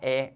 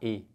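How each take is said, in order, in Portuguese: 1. A vogal é falada aberta. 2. A vogal é falada fechada. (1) "com esse tom de acento agudo" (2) "em vez de falar e"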